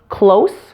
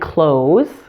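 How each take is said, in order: First: The word ends with a hissing S sound. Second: The word ends with a buzzing Z sound. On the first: It is used as an adjective. "the S E endings of nouns and adjectives will be pronounced with an S sound" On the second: It is used as a verb. "the S E endings on the verbs will be pronounced with a Z sound"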